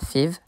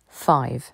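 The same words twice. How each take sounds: First: The vowel sounds like a French 'i'. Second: The vowel sounds like the word 'eye'. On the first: The speaker calls it wrong. "On ne dit pas five" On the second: The speaker calls it right. "mais five"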